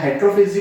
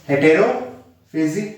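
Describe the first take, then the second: First: No vowel is heard between the t and r. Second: A vowel is heard between the t and r. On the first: "हेटेरो या हेट्रोफेजी" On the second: "हेटेरोफेजी या हेट्रोफेजी बोलते हैं"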